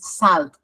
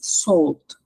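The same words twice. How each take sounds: First: The vowel is an open 'ah' sound. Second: The vowel is a rounded 'aw' sound. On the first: The speaker calls it wrong. "It's not with A" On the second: The speaker calls it right. "Como si fuera una O"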